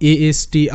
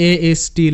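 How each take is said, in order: Both takes have the same delivery.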